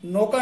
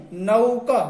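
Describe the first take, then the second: First: नौका said as "noka", short plain o; नौका flattened to "noka", the mistake to avoid; wrong pronunciation. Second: नौका with a clear "au" glide, "nauka"; नौका said properly as "nau-ka"; correct pronunciation. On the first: Teacher showing students the wrong नौका, said "noka". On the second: Teacher giving students the correct नौका as "nauka". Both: Shown as a demonstration. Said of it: "नौका नहीं".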